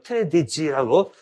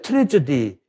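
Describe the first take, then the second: First: The d sound comes before the j sound. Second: The j sound comes before the d sound. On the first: The speaker calls it wrong. "D 발음하고 G 발음을 바꿔 발음해요" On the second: The speaker calls it right. "비극할 때 트레저디"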